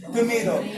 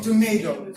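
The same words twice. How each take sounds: First: "Tomato" with "-mah-" and a flapped d; "Tomato" as a demo of the d sound. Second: "tomato" as Americans say it. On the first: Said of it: "it pronounced do". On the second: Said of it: "American English, they pronounce it". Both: Shown as a demonstration.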